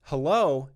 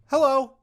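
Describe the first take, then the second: First: Said in the usual way. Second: Hello pitched up high and louder. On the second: Shown as a demonstration. Demonstrating a second way to greet a stranger, high and loud. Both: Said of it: "so I could say".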